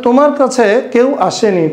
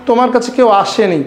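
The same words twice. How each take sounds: First: তোমার কাছে leaned on, standing out from the rest; stress on তোমার কাছে. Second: Said in the usual way. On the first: Shown as a demonstration. Teacher showing students the added emphasis, stress on তোমার কাছে. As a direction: put the weight on তোমার কাছে. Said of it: "এখানে তোমার কাছে একটু জোর দেওয়া হয়েছে".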